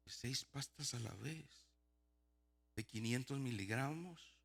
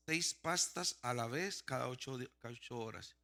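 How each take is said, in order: First: Slow, softer, questioning echo; quiet incredulity. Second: Reading out. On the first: Patient questioning the huge dose, softly incredulous. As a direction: repeat it slowly in hushed disbelief. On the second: Patient reading his prescription before taking it, deliberately. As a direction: read the label out deliberately. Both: Retold or imitated.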